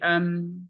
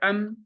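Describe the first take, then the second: First: The m sound flows on slightly longer. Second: The m sound is cut off abruptly. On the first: The speaker calls it right. "Dia agak sedikit ngalir" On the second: The speaker calls it wrong. "tidak bisa am, bukan"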